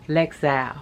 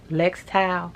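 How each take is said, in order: First: "Lexal" tried without a T, as LEK-sowl; unsure pronunciation. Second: "Lextal" tried with a T before the second syllable; unsure pronunciation. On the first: Vlogger guessing at the score's name, "Lexal" without a T, unsure. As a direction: sound out "Lexal", second syllable rhyming with owl. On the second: Vlogger guessing at the score's name, "Lextal" with a T, unsure. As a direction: sound out "Lextal" as LEKS-towl. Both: Real, not acted. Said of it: "I don't know what she said".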